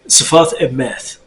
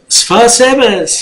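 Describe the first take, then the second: First: The first word ends with a t sound. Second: The first word ends with an s sound. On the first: "is how it should be said"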